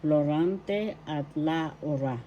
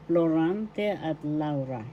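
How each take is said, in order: First: Slow "Florante at Laura", Laura as La-u-ra; careful pronunciation. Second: Said in the usual way. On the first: Shown as a demonstration. Teacher models the title "Florante at Laura", slowly pronounced. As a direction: draw out "Laura" in three syllables. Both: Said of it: "This is pronounced Laura".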